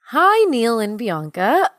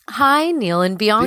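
First: It is said in a put-on Irish accent. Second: It is said in the speaker's ordinary accent.

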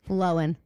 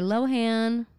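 First: The h sound in the middle is silent. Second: The h sound in the middle is pronounced. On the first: This is the newer, more mature way of saying it. The speaker calls it right. "it's a silent fucking H" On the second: This is the older, less mature way of saying it. The speaker calls it wrong. "Used to be little bitty immature Lohan"

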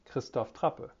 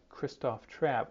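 First: The name is said with German pronunciation. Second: The name is said with English pronunciation. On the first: "in German, it's pronounced Christoph Trappe" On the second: "which is the agreed upon English pronunciation"

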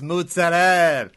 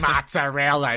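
First: The final vowel is cut off the word. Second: The word ends with its full final vowel. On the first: It is the old family dialect pronunciation. The speaker calls it right. "you cut off" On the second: It is the standard pronunciation the family rejects. The speaker calls it wrong. "what's this mozzarella?"

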